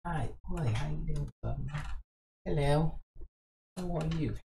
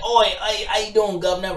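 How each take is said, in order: First: Hushed mock British accent; very soft British greeting. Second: Brash mock British accent; higher-pitched cheeky British greeting. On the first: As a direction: say it gently in a put-on British accent. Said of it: "You do it soft, right?". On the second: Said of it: "Do a British accent, like". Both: Shown as a demonstration.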